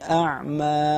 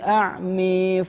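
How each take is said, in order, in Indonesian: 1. Vokal akhir adalah bunyi 'a' terbuka yang biasa. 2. Vokal akhir condong ke bunyi 'e'. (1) "Adapun yang kedua tidak" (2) "beliau mengimalahkan kata a'ma yang pertama saja"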